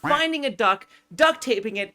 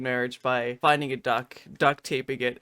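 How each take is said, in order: First: Upbeat tutorial step list. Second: "finding a duck, duct taping it" lower and softer, fake-contrite; mock remorseful retelling. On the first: Shown as a demonstration. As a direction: rattle off "finding a duck, duct taping it" as cheerful instructions. Tutorial host lists steps. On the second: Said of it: "I'm just tearing up a bit more".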